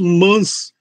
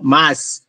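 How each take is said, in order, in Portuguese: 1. A vogal é nasalizada. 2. A vogal é um a oral simples. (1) "quer mudar o fonema de fechado para nasal" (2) "sem o i"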